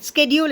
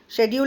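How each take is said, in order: First: It is said with an American English pronunciation. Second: It is said with a British English pronunciation. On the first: "and schedule in American English" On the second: "schedule in British English"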